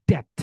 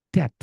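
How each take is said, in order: No difference in how they are said.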